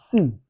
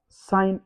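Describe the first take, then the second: First: It is said with a short vowel, like 'sin'. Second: It is said with a long vowel, like 'sign'. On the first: The speaker calls it wrong. "we don't pronounce it as sin" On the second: The speaker calls it right. "it is pronounced out as sign again"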